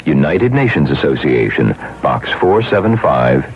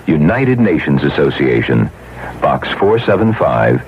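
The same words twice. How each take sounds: The two takes are said the same way.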